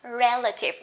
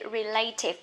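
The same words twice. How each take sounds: First: The stress is on the first syllable. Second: The stress is on the second syllable. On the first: The speaker calls it right. "this is relative" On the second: The speaker calls it wrong. "A lot of people say relative, but it's not correct"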